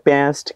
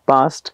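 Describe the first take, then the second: First: It is said in an American accent. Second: It is said in an Indian accent. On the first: "American English म्हणजे काय?" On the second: "आणि Indian is हॉज पॉज"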